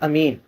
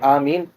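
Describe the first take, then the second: First: The first vowel is short. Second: The first vowel is drawn out long. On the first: "ये भी दुरुस्त है पढ़ना" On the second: "आवाज़ थोड़ा लंबा किया जाए, उसमें मत की जाए"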